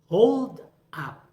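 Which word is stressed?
hold. The stress falls on the first word. It is used as a noun.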